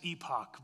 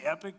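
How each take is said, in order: First: The last syllable sounds like 'pock'. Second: The last syllable sounds like 'pick'. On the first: This is the dictionary pronunciation. "the proper pronunciation for that is epoch" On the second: This is how most people say it. "I'm going to say epic because that's what everybody else says"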